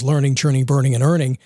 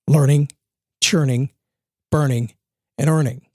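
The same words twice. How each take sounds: First: It is said at normal speed. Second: It is said slowly.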